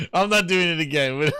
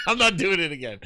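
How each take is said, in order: First: Said through a laugh; can't hold back a laugh. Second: Said in the usual way. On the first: Real, not acted. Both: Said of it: "repeat while laughing".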